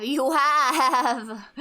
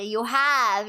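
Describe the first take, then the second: First: Laughing through the words; giggling while saying it. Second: Said in the usual way. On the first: Real, not acted.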